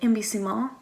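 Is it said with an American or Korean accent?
American. It is said with a plain American accent.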